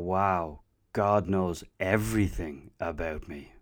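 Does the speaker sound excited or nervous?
nervous. The voice sounds nervous and uneasy. Being fully known feels unsettling. "oh boy, really? That's making me nervous"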